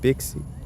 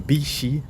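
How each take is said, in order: First: The x is said as a 'ks' sound. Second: The x is said as an 'sh' sound.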